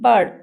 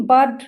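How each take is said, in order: First: "ବାର୍ଡ" with a silent R; correct pronunciation. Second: "ବାର୍ଡ" with the R sounded; wrong pronunciation. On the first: Teacher correcting pupils, "ବାର୍ଡ" said with silent R. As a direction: say "ବାର୍ଡ" leaving out the R before D. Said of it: "ଆର୍ ଲେଟରଟି ଆମର silent ରହୁଛି". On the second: Teacher showing pupils the wrong way, R sounded in "ବାର୍ଡ". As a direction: say "ବାର୍ଡ" pronouncing the R before D. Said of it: "ଏମିତି କହୁଛେ କି". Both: Shown as a demonstration.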